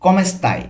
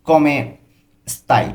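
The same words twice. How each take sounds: First: Said in the usual way. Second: Italian কমে স্তাই broken into syllables for learners; split into syllables. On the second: Shown as a demonstration. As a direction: say কমে, pause, then স্তাই.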